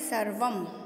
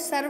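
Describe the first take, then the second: First: The word ends with a final m sound. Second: The word ends without a final m sound. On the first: The speaker calls it right. "इसको पढ़ेंगे सर्वम" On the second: The speaker calls it wrong. "सिर्फ सर्व नहीं पढ़ के"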